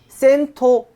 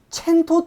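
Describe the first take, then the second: First: The name begins with an s sound. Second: The name begins with a ch sound. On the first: "근데 발음이 굉장히 어려워요" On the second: "첸토 디에이치라고도 발음할 수 있다고 하는데요"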